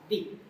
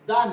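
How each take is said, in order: First: The word ends in a long 'ee' vowel. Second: The word ends in an open 'ah' vowel. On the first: The speaker calls it right. "या द या दी" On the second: The speaker calls it wrong. "दा नहीं होता है"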